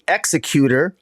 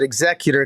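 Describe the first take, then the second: First: It is pronounced like one who executes people. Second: It is pronounced like the executor of a will. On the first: Someone who kills people. "it can also be pronounced the executor, I suppose, but he's not really a killer" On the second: Someone who carries out a will. "we pronounce it executor because we usually talk of an executor to a will"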